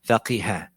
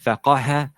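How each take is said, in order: First: The vowel after q is i. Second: The vowel after q is a. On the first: "or it can have a kasra" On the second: "or it can have a fatha"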